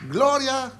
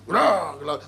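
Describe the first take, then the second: First: It is said warmly, with a smile. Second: It is said in a serious, flat way.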